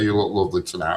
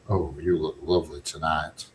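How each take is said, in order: First: It is said in a plain, ordinary way. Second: It is said in a slow, smouldering way.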